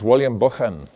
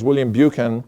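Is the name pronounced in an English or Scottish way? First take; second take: Scottish; English. First: The name is said in a Scottish way. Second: The name is said in an English way.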